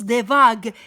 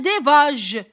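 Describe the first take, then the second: First: The consonant is a hard g sound. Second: The consonant is a soft zh sound. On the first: The speaker calls it right. "Pourtant, on prononce des vagues" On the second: The speaker calls it wrong. "Si j'écris seulement la lettre G, je vais prononcer des vages"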